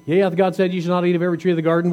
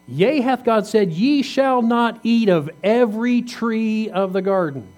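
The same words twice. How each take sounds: First: Rushed, fast reading of the verse; quick read-through. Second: "Yea, hath God said" slow and pitched higher, each word leaned on; preacher lingering on every word of the quote; slow emphatic reading. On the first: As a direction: rattle off "Yea, hath God said" quickly. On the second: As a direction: read the serpent's question slowly and pointedly, voice raised in pitch. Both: Shown as a demonstration. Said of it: "What question did he ask?".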